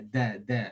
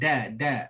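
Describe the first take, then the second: First: The d has a slightly unusual Arabic quality. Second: The d sounds like an ordinary Malay d. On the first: The speaker calls it right. "bunyi macam pelak sikit" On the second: The speaker calls it wrong. "bukan da da ... dal bagi orang Melayu"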